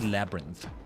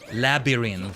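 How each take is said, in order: First: The middle vowel is nearly skipped, said quickly. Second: Every vowel in the word is fully pronounced. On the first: "it's usually gonna be" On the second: "it sounds like you would say"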